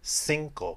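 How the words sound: The word begins with an 's' sound. This is how it is said in Venezuela. "which kind of has an S sound in English"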